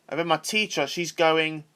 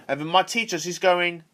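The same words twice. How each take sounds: The two takes are said the same way.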